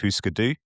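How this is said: The name is said with Scandinavian pronunciation. This follows the board game the name comes from. "the correct Scandinavian pronunciation"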